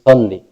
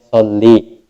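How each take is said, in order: First: The final vowel is short. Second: The final vowel is drawn out long. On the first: The speaker calls it right. "Yang betul itu tanpa iya" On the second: The speaker calls it wrong. "terkadang ada orang menyebutnya salli"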